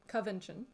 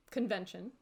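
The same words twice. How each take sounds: First: "convention" said as "cuh-VEN-shun", first n dropped; pronounced as written. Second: Said in the usual way. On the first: Shown as a demonstration. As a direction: say "convention" like "coven" plus "-tion". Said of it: "pronounce it the way it's written". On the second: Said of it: "trying to pronounce it".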